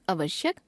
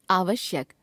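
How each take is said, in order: First: आवश्यक opening on short अ, rising; wrong pronunciation. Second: Said in the usual way. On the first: Shown as a demonstration. Teacher showing a common error, आवश्यक with short first vowel. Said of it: "अशुद्ध". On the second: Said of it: "शुद्ध".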